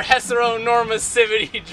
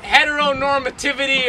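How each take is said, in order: First: Heteronormativity with the t sounds softened to s; altered pronunciation. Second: Said in the usual way. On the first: Shown as a demonstration. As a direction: say "heteronormativity" lisped into "hesseronormassivity". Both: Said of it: "is it heteronormativity or heteronormativity".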